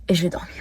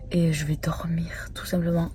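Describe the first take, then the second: First: Said in the usual way. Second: Soft whisper, almost voiceless. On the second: Real, not acted. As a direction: whisper it like saying goodnight. Quiet bedtime aside.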